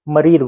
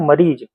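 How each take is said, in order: First: The word ends with a d sound. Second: The word ends with a z sound. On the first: This is how they say it. "ये लोग द लगाते हैं" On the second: This is how we say it. "हम लोग ज लगाते हैं"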